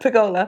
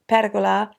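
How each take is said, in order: First: It is said with Australian English pronunciation. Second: It is said with Italian pronunciation. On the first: "the Australian pronunciation would be pergola" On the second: "in Italian it's pergola"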